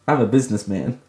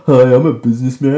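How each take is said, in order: First: Said in the usual way. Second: Louder, fast mock businessman greeting. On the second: Introducing herself to viewers in a lightly voiced businessman pitch. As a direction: play a lightly voiced salesman. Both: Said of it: "my voice went so low there".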